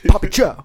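It is said in an angry tone.

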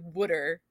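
The word is said in a Philadelphia-area accent. "which is like a Philly area thing"

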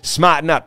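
It is said in a Massachusetts accent.

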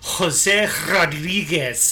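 The name is said with a Spanish accent. The caller says the name their own way. "But then they go, ... How do you not know a Spanish accent?"

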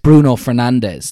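It is said with an English accent.

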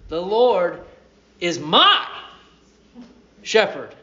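The word my is stressed.

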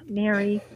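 The voice sounds disappointed and let down. The speaker is let down by the person. The speaker calls it wrong.

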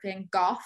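The name is said the European way.

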